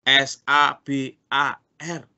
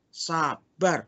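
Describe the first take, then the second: First: S A B A R spelled slowly letter by letter. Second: Said in the usual way. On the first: Shown as a demonstration. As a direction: spell out each letter of sabar. (mengeja S A B A R pelan-pelan)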